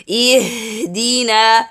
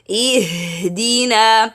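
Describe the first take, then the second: No difference in how they are said.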